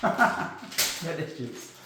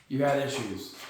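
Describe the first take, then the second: First: Drawn out through a chuckle; slow amused echo of the punchline; slow laughing repeat. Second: Said in the usual way. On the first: Shown as a demonstration. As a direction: let the repeat dissolve into laughter.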